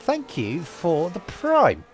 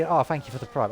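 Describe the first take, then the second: First: Slow, drawn-out shoutout thanks; clumsy streamer announcer voice; awkward stream announcement. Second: Light imitation of a Twitch streamer; breezy offhand shoutout, lightly mimicked; big streamer imitation. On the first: Acted. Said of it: "I'm terrible at announcing that stuff". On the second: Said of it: "the big Twitch streamers".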